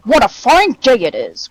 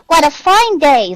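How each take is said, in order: First: It is said in a deep growling voice. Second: It is said in a high squeaky voice.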